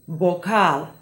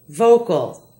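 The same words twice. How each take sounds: First: It begins with a B-like sound. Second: It begins with a V sound. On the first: This is the Spanish word. "In Spanish, the V is more like a B" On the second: This is the English word. "Here are some English and Spanish words"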